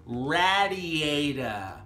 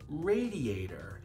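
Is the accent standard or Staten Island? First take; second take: Staten Island; standard. First: It is said in a Staten Island accent. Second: It is said in a standard American accent.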